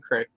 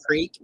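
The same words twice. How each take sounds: First: "crick" with a short i; Southern variant pronunciation. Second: "creek" with a long ee; standard pronunciation. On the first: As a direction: rhyme "crick" with brick. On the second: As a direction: hold the ee in "creek". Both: Shown as a demonstration. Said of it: "they say it both creek and crick".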